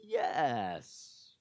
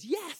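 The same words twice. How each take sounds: First: It is said slowly and doubtfully. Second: It is said quickly and happily. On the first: The acceptance is full of doubt. "Very slowly, yes. Less than convincing" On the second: The proposal is gladly accepted. "She then does her little giggle like this and says"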